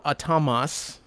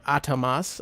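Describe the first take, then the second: First: Atamas with a drawn-out middle syllable; first pronunciation. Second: Atamas with the opening "A" stressed; alternative pronunciation. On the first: Host introducing a group's name, first pronunciation of Atamas. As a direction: say Atamas slowly, leaning on "ta". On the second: Host offering another guess at the group's name, alternative pronunciation of Atamas. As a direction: say Atamas leaning on the first syllable. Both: Shown as a demonstration. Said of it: "I don't know how you pronounce it".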